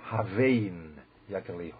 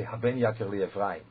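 First: "Havein Yakirli" read slowly with a v in Havein, said as a question; correct reading. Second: "Haben Yakirli Ephraim" read with a b in Haben, as a flat statement; the common mistake, "Haben" with a b; wrong reading. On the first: Shown as a demonstration. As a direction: say "Havein Yakirli" with a v sound, as a question, not Haben. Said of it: "you have to read it". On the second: Retold or imitated. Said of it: "That's not right".

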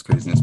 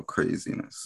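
First: Loud punchy exclamation; emphatic. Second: Breathy whisper to himself. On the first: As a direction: punch it out louder. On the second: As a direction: whisper it under your breath. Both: Real, not acted. Repeats word, trying variations.

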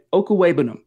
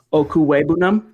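First: Okuwebunam stated firmly, falling at the end; settled name try. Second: Okuwebunam asked as a question, ending on a rise; tentative name try. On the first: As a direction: land Okuwebunam with confidence, pitch dropping at the end. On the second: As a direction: try out Okuwebunam carefully, unsure, pitch lifting at the end. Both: Shown as a demonstration. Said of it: "where is the emphasis?".

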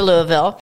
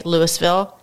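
First: "Louisville" with a silent S; pronounced Louie-ville. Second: "Louisville" with the S sounded; pronounced Louis-ville. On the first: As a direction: say "Louisville" as LOO-ee-vil, dropping the S. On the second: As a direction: say "Louisville" as LOO-is-vil, pronouncing the S. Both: Shown as a demonstration. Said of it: "Some people say Louisville".

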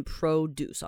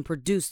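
First: Produce with stress on the first syllable, PRO-duce; noun produce. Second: Produce with stress on the second syllable, pro-DUCE; verb produce. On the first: Teacher showing the noun produce, first syllable stressed. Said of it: "你要注意这个字，你一定要念produce哦". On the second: Teacher warning about the verb produce, second syllable stressed. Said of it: "如果你念成produce的话，那就会变成动词". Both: Shown as a demonstration.

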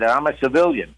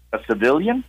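First: Said in the usual way. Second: Civilian? with a rising, doubting tune; incredulous echo. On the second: Retold or imitated. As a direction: echo it back as a puzzled question. Clerk repeats in disbelief.

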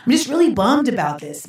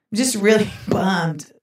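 First: Said in the usual way. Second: "really bummed" said slowly with a laugh breaking in; drawn out, laughing. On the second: Shown as a demonstration. Mock-sad aside to the listeners, slow and laughing. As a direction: stretch "really" and let a laugh slip before "bummed".

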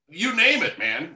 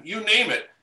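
First: Excited exclamation. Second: Said in the usual way. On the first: Real, not acted. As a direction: toss off you name it with real heat.

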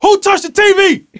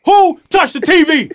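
First: High, loud furious yelling with a laugh under it. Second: Furious yell, repeated. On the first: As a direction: bark at the room like a pit bull. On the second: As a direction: demand it again, still furious. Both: Retold or imitated. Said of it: "I was like a pit bull".

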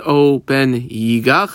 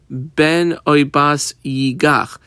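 First: Slow, with yigach drawn out and leaned on; stress on yigach. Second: Said in the usual way. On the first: Shown as a demonstration. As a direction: land hard on the word yigach. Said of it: "I squiggle underline that word yigach". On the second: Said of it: "now it could have just said".

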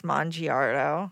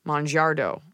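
First: "Mongiardo" said slowly as mon-jee-AR-doh; "Mongiardo" in a careful, drawn-out American reading; Mongiardo pronounced. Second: "Mongiardo" said as mon-JAR-doh, the i swallowed; "Mongiardo" run together the Italian way. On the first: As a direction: spell out "Mongiardo" with the i sounded, slowly. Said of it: "I know how I'd say it". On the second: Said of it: "that's a difference". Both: Shown as a demonstration.

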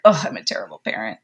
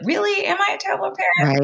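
First: Low, fast, self-blaming rush; panicked thought. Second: Much higher, fast, incredulous voice; mock disbelief. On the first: Retold or imitated. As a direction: blurt it out low and quick in dismay. Parent's panicked inner thought. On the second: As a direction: question the worry in a squeaky, doubting tone. Parent talking the thought down.

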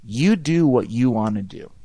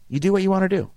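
First: Said in the usual way. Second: "You do what you want to do" said higher with weight on "what"; higher, emphatic repeat. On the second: Shown as a demonstration. Repeating his point to listeners, higher on "what". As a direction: land hard on "what". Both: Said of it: "The bigger question".

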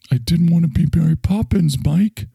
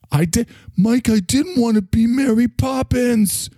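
First: Said in the usual way. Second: Worked-up protest. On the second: Acted. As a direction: insist in a raised pitch, worked up at being pushed. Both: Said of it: "You get so worked up".

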